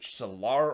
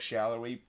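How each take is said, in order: First: The name ends with a short 'ar' sound. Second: The name ends with an 'ery' sound. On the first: The speaker calls it wrong. "they pronounce it Shalar or something" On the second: The speaker calls it right. "the correct pronunciation is Daniel Shallery"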